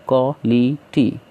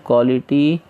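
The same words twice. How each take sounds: First: quality in three slow pieces; teacher counting out the three syllables of quality. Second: Said in the usual way. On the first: Shown as a demonstration. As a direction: say quality as क्वा, लि, टी with gaps. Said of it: "इस तरीके से". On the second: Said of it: "syllable कैसा है इसमें?".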